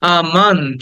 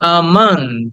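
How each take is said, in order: Both takes have the same delivery.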